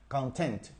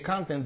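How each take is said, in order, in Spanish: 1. El acento está en la segunda sílaba. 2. El acento está en la primera sílaba. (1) "la fuerza de la pronunciación o el estrés cae en la segunda sílaba" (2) "Ahí está utilizado como sustantivo"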